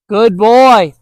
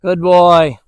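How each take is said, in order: First: Loud praise. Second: Calm praise. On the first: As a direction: reward him out loud the moment he turns back. Praising returning dog. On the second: Praising dog after long pause. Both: Real, not acted.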